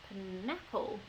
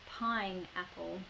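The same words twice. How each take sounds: First: The stress is on a later syllable. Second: The stress is on the first syllable. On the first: The speaker calls it wrong. "if I move that stress into a different position in the word, it sounds a bit strange" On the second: The speaker calls it right. "I put quite a lot of stress on that first pine"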